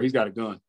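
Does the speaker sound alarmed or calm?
calm. The warning is said in a casual, relaxed tone. The listener thinks it is routine and nothing urgent. "Oh, okay, let me help him. He's ready to check out"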